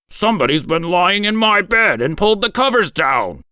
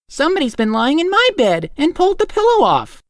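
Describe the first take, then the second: First: It is growled in a great big voice. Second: It is said in a middle-sized voice.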